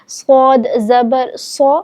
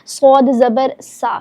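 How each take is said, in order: First: The syllable is pronounced heavy and full. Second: The syllable is pronounced thin and light. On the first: The speaker calls it right. "मोटा करके भी पढ़ेंगे" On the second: The speaker calls it wrong. "ये दुरुस्त अदायगी नहीं है"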